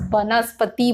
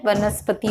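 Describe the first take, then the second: First: वनस्पति said as banaspati. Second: वनस्पति said as vanaspati; initial v sound. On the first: Teacher shows common mistake, वनस्पति with initial b. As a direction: start वनस्पति with a b sound. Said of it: "लिखते भी ब हैं". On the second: Teacher gives correct form, वनस्पति with initial v. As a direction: start वनस्पति with v, no b. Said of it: "व से होता है". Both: Shown as a demonstration.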